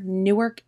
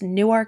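First: It is the New Jersey pronunciation. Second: It is the local Delaware pronunciation. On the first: It names the city in New Jersey. "Newark in New Jersey" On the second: It names the town in Delaware. "it is Newark in Delaware"

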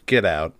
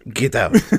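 First: It is said without the put-on accent. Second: It is said with the put-on accent.

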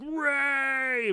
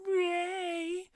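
First: It is yelled in a deep, manly voice. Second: It is yelled in a higher, less manly voice.

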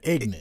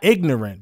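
First: It is said in a Virginia pronunciation. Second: It is said in a standard pronunciation.

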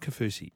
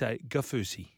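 First: The name begins with a K sound. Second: The name begins with a G sound. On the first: The speaker calls it wrong. "It's not Kafusi" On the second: The speaker calls it right. "The K is a G"

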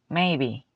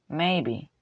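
The two takes are said the same way.

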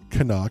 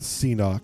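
First: The name sounds like 'ca-nuck', two syllables. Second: The name sounds like 'see-knock', letter then word. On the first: The speaker calls it right. "That's Canuck" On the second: The speaker calls it wrong. "not C-Knock"

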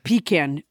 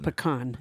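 First: The first syllable sounds like 'pee'. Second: The first syllable does not sound like 'pee'. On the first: It suggests something other than a dessert nut. The speaker calls it wrong. "pecan invokes something entirely different" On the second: It names the nut used in pie. The speaker calls it right. "the proper pronunciation"

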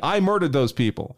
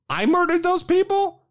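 First: It sounds like a flat statement of confession. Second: It sounds like a shocked, disbelieving question. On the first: The speaker admits to the killings. "as if it was a confession" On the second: The speaker cannot believe the accusation. "And the kid goes"

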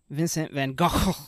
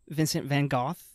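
First: The name is pronounced the Dutch way. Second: The name is pronounced the British way. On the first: "in Dutch he's known as" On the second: "as our friends across the pond in Britain call him"

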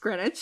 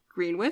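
First: The word is said in a shortened form. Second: The word is sounded out as it is spelled. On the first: The speaker calls it right. "No. It's Greenwich" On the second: The speaker calls it wrong. "I would pronounce it Greenwich"

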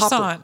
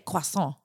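First: It is said the American way. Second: It is said the French way.

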